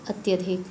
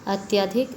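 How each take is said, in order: First: Short middle a in अत्यधिक; corrected vowel. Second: Long aa in अत्याधिक, rising end; vowel error. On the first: Teacher giving the correction, short-vowel अत्यधिक. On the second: Teacher showing children the error, long-vowel अत्याधिक. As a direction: stretch the middle vowel of अत्याधिक to aa. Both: Shown as a demonstration. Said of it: "स्वर संबंधी अशुद्धियाँ देखो".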